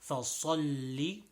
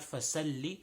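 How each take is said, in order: First: The s sound is heavy and emphatic. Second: The s sound is light and plain. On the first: The speaker calls it right. "this is a صاد" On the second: The speaker calls it wrong. "not a sin. So not"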